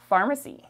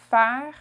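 First: Said in the usual way. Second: "Pharmacie" in three separate French syllables. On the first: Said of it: "Pharmacy in French". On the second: Shown as a demonstration. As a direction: model "Pharmacie" in French, starting louder, pausing between syllables. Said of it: "is very similar".

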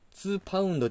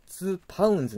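First: ツーパウンド ending in "do"; ツーパウンド closed on a Japanese "do"; singular ending. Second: ツーパウンズ ending in "zu"; ツーパウンズ closed on a buzzed "zu"; plural ending. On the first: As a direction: say ツーパウンド with no plural z sound. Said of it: "ではなく". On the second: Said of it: "になるんですよ". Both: Shown as a demonstration.

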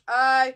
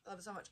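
First: Loud gush. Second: Soft, breathy-free hushed gush. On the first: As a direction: blurt it out full of joy. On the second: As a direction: say it almost under her breath in awe. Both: Real, not acted. Gushing over a gift.

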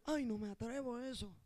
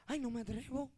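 First: Softer, lower, shrinking reply; mock a scared churchgoer; quiet mock timid whine; timid excuse. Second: Soft, lower, shrinking reply; mock a scared churchgoer; quiet mock timid whine; timid excuse. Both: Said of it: "gente que tú dices".

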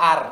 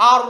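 First: "আর"-এর র পাতলা করে বলা; "আর" বলুন হালকা, পাতলা র দিয়ে; পাতলা র-এর ভুল উচ্চারণ. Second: "আর"-এর র মোটা করে বলা; "আর" বলুন ভারী, মোটা র দিয়ে. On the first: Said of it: "অনেকে বলে ফেলবে". ("আর"-এ র মোটা না করে পাতলা) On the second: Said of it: "normally র মোটা". ("আর"-এ মোটা র, আ-ও ভারী) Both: Shown as a demonstration.

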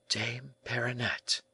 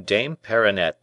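First: Soft, slow, higher-pitched murmur; hushed echo of the name. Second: Said in the usual way. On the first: A narrator's reading. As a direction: murmur the name slowly, in wonder. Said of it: "murmured the young man".

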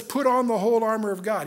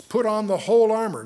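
First: Said in the usual way. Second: Whole punched, louder and firm; stress on whole. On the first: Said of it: "He's gonna say that twice for emphasis". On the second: Shown as a demonstration. Preacher urging the congregation, stress on whole. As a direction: lean hard on the word whole. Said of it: "say that twice for emphasis".

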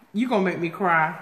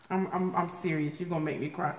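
First: Said in the usual way. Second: Much softer and lower, quick earnest aside; earnest, touched. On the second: Real, not acted. Vlogger touched by gifts, quiet sincere aside. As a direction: drop the volume and say it in earnest.

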